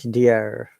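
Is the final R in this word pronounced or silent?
pronounced. The final R is pronounced. "And American English"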